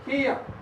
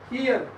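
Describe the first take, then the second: First: The final r sound is silent. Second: The final r sound is pronounced. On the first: "in a British English" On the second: "So this is a American English"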